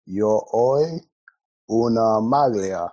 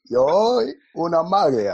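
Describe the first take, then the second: First: Put-on Italian in a Nigerian accent; slow, loud Nigerian-accented Italian. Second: Put-on louder, higher Nigerian-accented Italian. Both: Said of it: "why are you speaking in a Nigerian accent".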